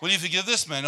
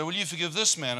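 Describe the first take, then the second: First: Repeated question through a laugh; louder laughing repeat of the question. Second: A hint of a divine voice asking; lightly voiced questioning from above; mild, raised divine question; voice of God. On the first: Retold or imitated. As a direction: ask it again, laughing. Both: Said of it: "I got this voice say".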